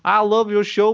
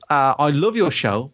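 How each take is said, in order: First: It is said in a put-on character voice. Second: It is said in the speaker's normal voice.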